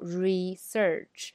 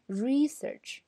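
First: Both syllables get equal stress. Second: The stress is on the first syllable. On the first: The speaker calls it wrong. "我们不能读research，那么它就变成一样的了啊" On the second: The speaker calls it right. "名词呢，读research，那么re 这个时候要长一点"

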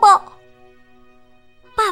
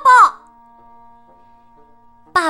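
First: It is said softly. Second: It is said loudly.

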